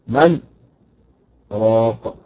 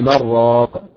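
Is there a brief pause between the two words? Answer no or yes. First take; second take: yes; no. First: A brief pause separates the two words. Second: The words run together without a pause. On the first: "حفص فرض بالسكت" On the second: "نطق بها عادي"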